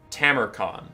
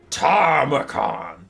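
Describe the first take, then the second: First: The first syllable has no R sound. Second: An R sound follows the first vowel. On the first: The speaker calls it right. "I think I've got it now" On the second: The speaker calls it wrong. "I was adding an R"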